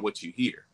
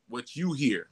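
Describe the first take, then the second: First: The word hear carries the main stress. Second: The word you carries the main stress. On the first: It is about the outside music heard. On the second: It is about your own inner sound.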